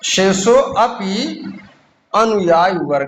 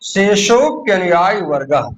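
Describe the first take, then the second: First: The words are said separately. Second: The words are run together as one.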